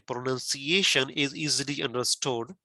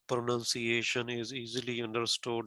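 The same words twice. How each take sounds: First: The pitch moves up and down with stress. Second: The pitch stays flat with little movement. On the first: The speaker calls it right. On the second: The speaker calls it wrong.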